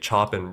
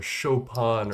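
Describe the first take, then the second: First: The name is said with a Polish pronunciation. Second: The name is said with an American pronunciation. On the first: "Polish people just say Chopin" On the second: "All these Americans say like Chopin"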